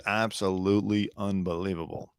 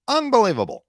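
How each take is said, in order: First: Said in the usual way. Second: High, loud exaggerated disbelief; mock disbelief. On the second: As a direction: ham up the shock on the word. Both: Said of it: "someone says".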